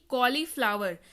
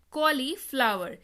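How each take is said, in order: Both takes have the same delivery.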